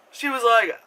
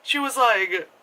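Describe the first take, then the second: No difference in how they are said.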